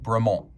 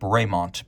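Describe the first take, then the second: First: The name is said with a French pronunciation. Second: The name is said with an English pronunciation. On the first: This is how the original French farmer said it. "The farmer would have pronounced it Bremont" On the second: This is the official name of the British brand. "it is officially Bremont because this is an English watch brand"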